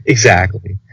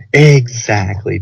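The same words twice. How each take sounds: First: Said in the usual way. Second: "Exactly" drawn out slowly; slow, leaned-on "Exactly"; emphatic EXACTLY. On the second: Real, not acted. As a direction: stretch "Exactly" to twice its length in agreement. Agrees, then repeats the word drawn out.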